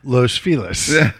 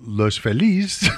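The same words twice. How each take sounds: First: The name is pronounced the American way. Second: The name is pronounced the Spanish way. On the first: "becomes Los Feliz" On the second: "that's how Los Feliz becomes"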